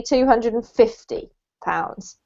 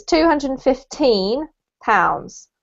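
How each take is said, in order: First: "fifty" with the weight on "fif"; stress on FIF. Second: Put-on slow "fifteen" with the weight on "teen"; stress on TEEN. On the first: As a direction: hit the first syllable of "fifty". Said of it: "you put the emphasis on the fifth". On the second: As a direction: lean on the "teen" of "fifteen", said slowly. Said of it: "you put the emphasis on the teen". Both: Shown as a demonstration.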